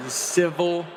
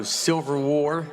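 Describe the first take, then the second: First: Said in the usual way. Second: "Silver War" with an S sound and a clear L, "Silver" in place of civil; "Silver War" said the way he always says it; his own way of saying it. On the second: Shown as a demonstration. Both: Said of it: "that's how I say it".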